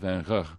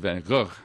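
First: The G is a softer throat sound. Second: The G is a hard, harsh throat sound. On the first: This is how the south of the country says it. "in the South, where he was born, it's a softer G" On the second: This is how the north of the country says it. "in Northern Holland, it's sort of a hard G"

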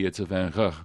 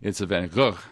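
First: The G sounds are soft and gentle. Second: The G sounds are hard and harsh. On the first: This is how it is said in the south. "in the south where he was born, it's a softer G" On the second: This is how it is said in the north. "in northern Holland, it's sort of a hard G"

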